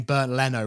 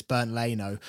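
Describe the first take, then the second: First: "Leno" with short e, LEN-oh; mispronounced Leno. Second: "Leno" with long ay, LAY-no; corrected Leno. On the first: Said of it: "we're all saying Bernd Leno wrong". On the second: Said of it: "It's Bernd Leno". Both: Shown as a demonstration.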